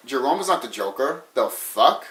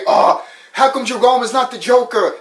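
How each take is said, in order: First: Low, quiet mock disbelief; dropped-voice, incredulous fan reaction; baffled fans. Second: High-pitched mock protest; whiny mock outrage from a fan; complaining fans. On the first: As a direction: imitate a fan muttering in confusion. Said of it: "other people will be like". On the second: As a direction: imitate indignant fans, pitched well up. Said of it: "People will say".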